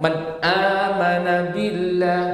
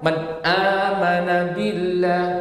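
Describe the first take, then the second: First: The n sound is held back and clipped. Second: The n sound is held back and clipped.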